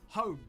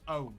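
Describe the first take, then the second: First: The word starts with a clear h sound. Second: The word starts with no h sound.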